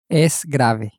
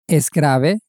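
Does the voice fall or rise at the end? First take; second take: falls; rises. First: The voice falls at the end. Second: The voice rises at the end.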